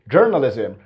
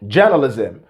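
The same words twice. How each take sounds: First: The R after the first vowel is pronounced. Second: The R after the first vowel is silent. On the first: "if it was the American English, they're going to pick the R" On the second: "Trevor didn't pick the R in the particular word"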